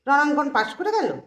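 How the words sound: It sounds sarcastic and mocking. The passing is mocked as undeserved. "এখানে কিন্তু তির্যক।"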